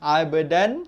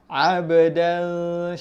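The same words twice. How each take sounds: First: The n sound is pronounced clearly and fully. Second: The n sound is hidden in a nasal hum. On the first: The speaker calls it wrong. "Abdan jelas" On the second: The speaker calls it right.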